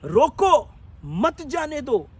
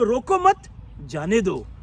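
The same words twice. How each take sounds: First: There is a pause after 'roko'. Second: There is a pause after 'mat'.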